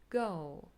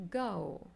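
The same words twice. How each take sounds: The two takes are said the same way.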